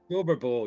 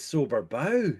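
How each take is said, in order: First: The word 'Bow' rhymes with 'go'. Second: The word 'Bow' rhymes with 'cow'.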